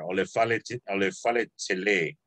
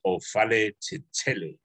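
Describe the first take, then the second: First: Ole fale tele with tele lifted and held; stress on tele. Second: O fale ti tele said evenly, no lift on "tele"; even, unstressed tele; no stress on tele. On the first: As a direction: lean on the end of "tele". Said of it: "there's emphasis on the end of tele". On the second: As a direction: keep "tele" unstressed at the end. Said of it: "but there's no emphasis on the". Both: Shown as a demonstration.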